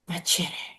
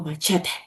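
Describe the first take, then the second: First: It is said with an English pronunciation. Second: It is said with a Spanish pronunciation.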